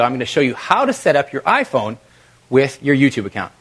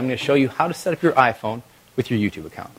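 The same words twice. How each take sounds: First: It is said in a lively, high-energy way. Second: It is said in a flat, low-energy way. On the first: The speaker calls it right. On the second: The speaker calls it wrong.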